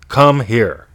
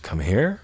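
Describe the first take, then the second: First: It is said in a bossy, commanding tone. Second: It is said in a confused, puzzled tone. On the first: "the bossy one"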